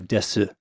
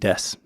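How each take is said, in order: First: The final vowel is sounded after the s. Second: The final vowel is dropped after the s. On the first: "instead of desu" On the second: "you just don't pronounce the U at the end"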